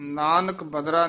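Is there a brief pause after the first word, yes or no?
no. The two words run together without a break. The speaker calls it wrong. "Nanak ਬਦਰਾ ਨਹੀਂ ਕਹਿ ਦੇਣਾ।"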